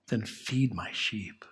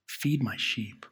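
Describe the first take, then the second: First: Hushed, slow whisper; a soft, unvoiced, slow telling. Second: Said in the usual way. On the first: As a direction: breathe the words softly as Jesus. Quoting Jesus to Peter.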